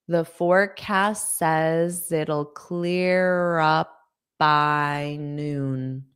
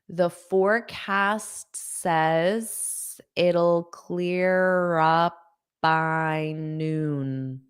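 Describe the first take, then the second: Both takes have the same delivery.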